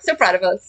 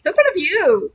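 First: Said in the usual way. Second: High, bright excited praise. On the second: Acted. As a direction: burst out proudly. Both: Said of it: "repeated with more excitement".

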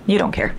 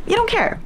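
First: Said in the usual way. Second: Teasing squeal. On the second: Real, not acted.

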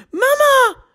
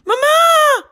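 First: Put-on high child's call of mama, first try; a small girl calls her mum. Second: Put-on high, loud child's shout of Mama; the girl calls louder in alarm. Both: A narrator's reading. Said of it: "roept Anna".

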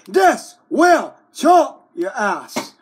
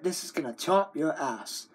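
First: Loud slow threat. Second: Said in the usual way. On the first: Acted. Threatening with scissors.

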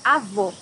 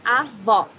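First: "Avô" with a tight, closed final ô, like "oh"; "Avô" ending on a closed, stressed "oh" sound. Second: "Avó" with a wide-open final ó, like "aw"; "Avó" ending on an open, stressed "aw" sound. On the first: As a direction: stress the last syllable of "Avô" with rounded closed lips. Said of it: "Here you have a closed O". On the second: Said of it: "the last O ... an open O". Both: Shown as a demonstration.

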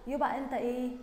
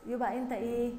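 Both takes have the same delivery.

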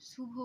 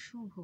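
First: শুভ begun with a hissing dental s; s sound in শুভ. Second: শুভ begun with a palatal sh; sh sound in শুভ. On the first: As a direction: say শুভ as "subho", with s instead of sh. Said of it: "স উচ্চারণ করছি না". (শুভ-তে দন্ত্য স-এর উচ্চারণ) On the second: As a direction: say শুভ with sh as in "shoe". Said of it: "স উচ্চারণ করছি". (শুভ-তে তালব্য শ-এর উচ্চারণ) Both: Shown as a demonstration.

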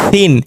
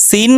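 First: সিন begun with a soft th-like sound. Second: সিন begun with a firm, hissed s; hard S. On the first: Teacher drilling two S sounds, soft সিন. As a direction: soften the স of সিন into a gentle th. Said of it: "আর একটা নরম". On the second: Teacher drilling two S sounds, hard সিন. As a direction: keep the স of সিন hard and sharp. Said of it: "একটা শক্ত". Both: Shown as a demonstration.

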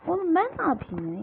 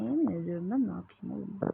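First: High, loud, fast protest; exasperated yell. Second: Said in the usual way. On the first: Real, not acted. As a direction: fire it back at the game in outrage. Panicked at the game's accusation.

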